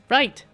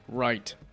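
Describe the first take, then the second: First: It is said in a very high voice. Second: It is said in a deep, low voice. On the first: "if I do like a really high voice" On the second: "I was having fun doing the low voice"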